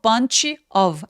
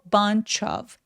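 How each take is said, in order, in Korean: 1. 두 단어는 따로 말해요. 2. 두 단어는 연결해서 말해요. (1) "bunch of 아니고" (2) "of라고 연음해서 입술 쭉 내밀고"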